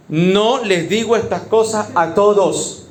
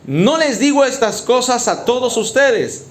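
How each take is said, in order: First: "No les digo estas cosas a todos" slow and deliberate; pointed repetition. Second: Said in the usual way. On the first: Acted. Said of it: "por si le queda una duda".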